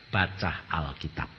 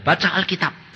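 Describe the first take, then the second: First: Low, soft, slow "Baca Alkitab"; God's calm command, lower and quieter. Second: Said in the usual way. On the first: Retold or imitated. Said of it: "Tuhan berkata". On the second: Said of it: "Tuhan bilang".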